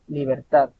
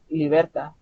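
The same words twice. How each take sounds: First: The stress falls on the last syllable. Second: The stress falls before the last syllable. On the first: The speaker calls it right. "la mayor entonación debe de ser al final" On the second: The speaker calls it wrong. "No podemos decir libertad. Suena raro"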